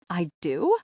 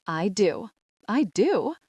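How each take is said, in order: First: Questioning repeat of DO; incredulous echo. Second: Proud proclamation, pitch climbing on the repeat; loud, dramatic announcement. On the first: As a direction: echo it as if baffled by the answer. Narrator echoes wrong answer in disbelief. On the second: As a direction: announce it proudly to the whole church. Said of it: "in a loud, dramatic voice". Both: A narrator's reading.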